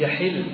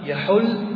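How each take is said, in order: First: The middle vowel is i, as in yahillu. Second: The middle vowel is u, as in yahullu. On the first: Someone left the state of ritual consecration. "هذه بالكسر" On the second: Someone settled or stayed in a place. "إن أردت به من المكان فإنك تضم"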